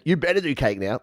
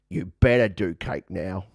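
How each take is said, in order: First: It is said in the speaker's natural voice. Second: It is said in a put-on imitation accent.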